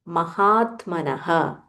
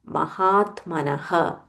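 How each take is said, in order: Both takes have the same delivery.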